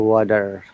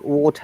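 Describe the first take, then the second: First: The T is a flapped D, American style. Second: The T is strong, British style, no R. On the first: "they say water" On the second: "we call water"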